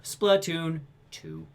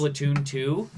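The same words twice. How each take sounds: First: Very slow, drawn-out mock translator; unexcited dub. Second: Lightly imitated game presenter; excited developer. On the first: Podcaster mocking the dubber beside an animated developer, very slow unexcited dub voice. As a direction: stretch the title out like a detached voice-over. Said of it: "the dub guy's still like". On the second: Podcaster showing how the developer said the title, lightly imitated presenter. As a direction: say the title like a keen developer onstage. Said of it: "Every time he said".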